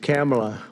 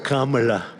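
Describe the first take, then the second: First: The first syllable sounds like 'cam'. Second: The first syllable sounds like 'com'. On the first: The guest's own name. "It's Cam" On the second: A different politician's name. "as opposed to Com. We don't like Com"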